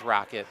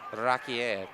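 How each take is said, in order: First: The name is pronounced like English rocket. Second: The name is pronounced the French way. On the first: This is what the crowd likes to call him. "we're gonna go with Rocket" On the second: This is how the family would say it. "the French pronunciation is Rocket"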